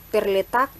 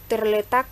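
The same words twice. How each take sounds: The two takes are said the same way.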